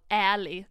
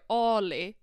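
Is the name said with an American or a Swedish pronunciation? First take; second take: American; Swedish. First: The name is said with an American pronunciation. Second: The name is said with a Swedish pronunciation. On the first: "med amerikanskt uttal" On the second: "Men jag läser ju Ali"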